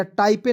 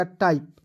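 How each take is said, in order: First: टाइपे with final E sounded; wrong pronunciation. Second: टाइप ending on P, E silent; correct pronunciation. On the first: Teacher warning students off, misread टाइपे with sounded E. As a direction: add an "ay" ending, टाइपे. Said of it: "टाइपे नहीं पढ़िएगा". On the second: Teacher showing the right reading, silent-E टाइप. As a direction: stop टाइप on the P. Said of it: "या टाइपे नहीं पढ़िएगा". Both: Shown as a demonstration.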